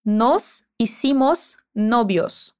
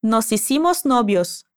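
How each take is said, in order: First: Hicimos novios drawn out slowly, word by word; slow model phrase. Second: Nos hicimos novios run together smoothly; linked phrase. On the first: Teacher slowly modelling the phrase for repetition. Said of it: "Escuta e repete como fica". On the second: Teacher linking the words for the student to repeat. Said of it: "conectando as palavras". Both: Shown as a demonstration.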